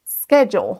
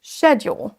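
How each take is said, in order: First: SCHEDULE with SK at the start; prononciation américaine. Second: SCHEDULE with SH at the start; prononciation britannique. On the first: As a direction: say SKED-jool for SCHEDULE. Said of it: "vous entendez un son sk". (SCHEDULE avec SK au début) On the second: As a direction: say SHED-yool for SCHEDULE. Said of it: "on démarre avec le son ch". (SCHEDULE avec un CH initial) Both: Shown as a demonstration.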